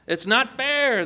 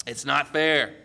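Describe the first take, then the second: First: Higher-pitched, indignant complaint; mock shouted protest. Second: Said in the usual way. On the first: Early workers to the vineyard owner, mock shouted protest. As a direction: protest it high, hurt and indignant. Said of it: "they shouted". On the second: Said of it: "wouldn't you say the same?".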